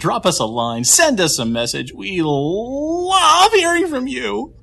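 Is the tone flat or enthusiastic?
enthusiastic. It is said with exaggerated enthusiasm.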